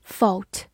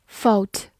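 Both takes have the same delivery.

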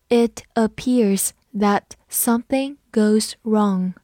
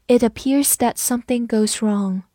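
First: Slow, with a gap between words; slow reading. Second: Said in the usual way. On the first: Shown as a demonstration. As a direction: model it slowly, word by word. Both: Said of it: "我们慢读一遍".

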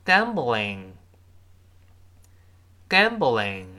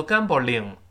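First: "gambling" with a light, uncurled L; careful teacher reading of "gambling"; correct English L. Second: "gambling" ending in a Chinese-style "ling"; wrong demo of "gambling", L said as in pinyin ling; wrong L sound. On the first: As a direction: model "gambling" slowly, tongue tip forward on the L. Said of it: "我们再读一下这个分词". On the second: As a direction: show the mistaken "gambling" with a separate "ling" syllable. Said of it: "注意那个L不要读gambling". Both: Shown as a demonstration.

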